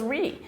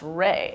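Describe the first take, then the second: First: The vowel is a long 'ee' sound. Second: The vowel is an 'ay' sound. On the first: The speaker calls it wrong. "I thought it was Ree" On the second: The speaker calls it right. "it's not, it's Ray"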